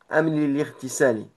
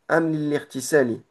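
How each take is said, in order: The two takes are said the same way.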